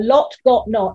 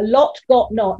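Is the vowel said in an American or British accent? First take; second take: British; British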